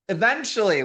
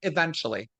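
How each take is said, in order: First: Eventually punched louder and higher; Eventually said emphatically, raised and louder; stress on Eventually. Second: Said in the usual way. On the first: Real, not acted. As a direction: lean hard on "Eventually". Repeats the word to stress the delay.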